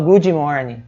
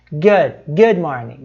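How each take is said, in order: First: "good morning" as "goody morning"; wrong extra i. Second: "good morning" with the d of "good" held, no vowel before "morning"; slow "good morning", unreleased d in "good"; silent d. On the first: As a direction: put an ee between "good" and "morning". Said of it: "Os americanos não falam". ("good morning" com i intruso: "gúdi morning") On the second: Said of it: "termina com uma consoante que não tem som". ("good morning" devagar, com d mudo) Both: Shown as a demonstration.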